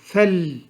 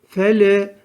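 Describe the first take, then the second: First: The word ends cleanly on the l sound. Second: A short hidden vowel follows the final l. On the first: The speaker calls it right. "Biz doğrudan harfi tutturmamız gerekiyor" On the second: The speaker calls it wrong. "Fele böyle gizli bir hareke veriliyor. Öyle değil"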